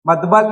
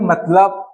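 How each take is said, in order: First: The middle consonant is b, then l. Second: The middle consonant is l, then b. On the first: The speaker calls it wrong. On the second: The speaker calls it right.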